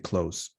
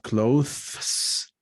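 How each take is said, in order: First: The th sound is dropped before the s. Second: The th sound is pronounced before the s. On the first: The speaker calls it right. "pronounced in a simplified way" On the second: The speaker calls it wrong. "Not clothes, because it's difficult to make that change"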